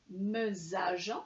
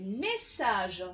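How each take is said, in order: First: The middle consonant is a buzzing z sound. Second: The middle consonant is a hissing s sound. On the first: The speaker calls it wrong. "S'il n'y avait eu qu'un seul S, ça aurait fait mesage" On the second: The speaker calls it right. "on a besoin d'un deuxième S pour faire le son S"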